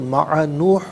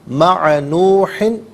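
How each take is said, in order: First: The word stops on a bare h sound. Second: The word ends with an -in sound. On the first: The reader stops here. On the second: The reader continues without stopping.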